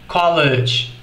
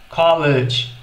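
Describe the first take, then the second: Both takes have the same delivery.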